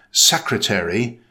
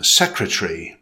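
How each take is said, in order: First: Secretary in four syllables, SEK-ruh-tair-ee; American "secretary", first syllable stressed; American pronunciation. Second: Secretary said the British way, SEK-ruh-tree; British "secretary", first syllable stressed; British pronunciation. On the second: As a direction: shorten the end of "secretary" as in British English. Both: Shown as a demonstration.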